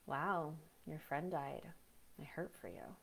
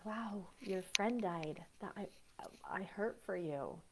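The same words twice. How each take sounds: First: Detached sympathy. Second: Slow, soft, heartfelt condolence; slow sincere sympathy. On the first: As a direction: say it like it barely touches you. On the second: Comforting someone whose friend died, slow sincere sympathy. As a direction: linger on each word like you really mean it. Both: Shown as a demonstration. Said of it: "I'm gonna use a personal experience".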